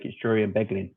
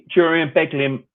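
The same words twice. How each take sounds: First: Said in the usual way. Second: Higher and louder, savouring the names; proudly echoing his commentary duo, higher and louder; gleeful emphatic repeat. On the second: Real, not acted.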